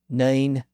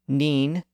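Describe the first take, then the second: First: The vowel sits between ee and eye. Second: The vowel is a high front ee sound. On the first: This is the early modern pronunciation. "Shakespeare would have said nine" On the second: This is the older medieval pronunciation. "Chaucer would have said neen"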